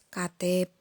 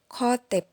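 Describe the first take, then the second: First: It begins with a plain k sound. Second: It begins with a throaty kh sound. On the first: The foreign sound is not kept distinct. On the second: The foreign sound is kept distinct.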